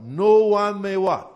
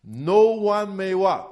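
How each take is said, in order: First: Slow, stress on No; emphasized. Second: Said in the usual way. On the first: Shown as a demonstration. Pastor repeating the verse to his congregation, stress on No. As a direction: lean hard on No as you repeat it. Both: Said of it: "I want to emphasize this part".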